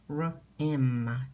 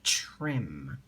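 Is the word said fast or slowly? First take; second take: slowly; fast. First: The word is said slowly, sound by sound. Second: The word is said quickly as one blended unit.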